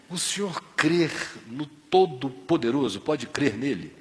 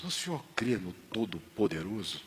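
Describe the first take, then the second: First: "O senhor crê no Todo-Poderoso?" repeated slowly, stressing "crê"; slow deliberate repeat. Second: "o senhor crê no Todo-Poderoso?" asked softly and low; first ask of "crê no Todo-Poderoso?", gentle and hushed; quiet question. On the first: Father repeats the question to a confused seu Barros, slow and clear. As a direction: spell out "crê" slowly so he hears it. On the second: Father quietly asks seu Barros about his faith, soft. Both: Retold or imitated.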